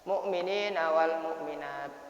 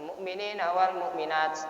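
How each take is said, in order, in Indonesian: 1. Bunyi t di akhir jelas, tanpa desis. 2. Bunyi t di akhir membawa desis seperti s. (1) "di tidak perlu dikeluarkan desiran s-nya" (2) "kadang-kala kayak gitu. Itu salah itu bacaan kayak gitu"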